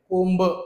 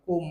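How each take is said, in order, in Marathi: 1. शेवटचा b स्पष्टपणे उच्चारला जातो. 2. शेवटचा b फारच थोडा उच्चारला जातो. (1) "कोंब असं नाही म्हणत आपण" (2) "ब चा उच्चार आहे परंतु खूप थोडासा आहे"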